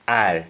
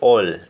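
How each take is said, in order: First: It is said in a Jamaican accent. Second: It is said in an English accent. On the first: "Jamaican we say all" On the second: "English we say all"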